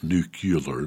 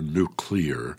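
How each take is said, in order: First: The word is pronounced like 'nucular'. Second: The word is pronounced like 'nuclear'. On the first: The speaker calls it wrong. "Not nuclear" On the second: The speaker calls it right. "Did I say that right?"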